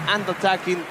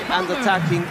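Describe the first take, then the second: No difference in how they are said.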